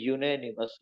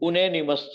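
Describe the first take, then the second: First: The word begins with a 'y' glide, 'yoo'. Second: The word begins with a plain 'oo' vowel. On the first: The speaker calls it right. "પણ બોલાય છે યુનેનિમસ" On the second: The speaker calls it wrong. "વાંચવા જાઓ તો ઉનેનિમસ થાય"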